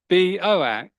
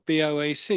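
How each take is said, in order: First: It is run together as one word. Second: Each letter is said separately. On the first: The speaker calls it wrong. "But the computer said it's" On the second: The speaker calls it right. "you'd pronounce the individual initials"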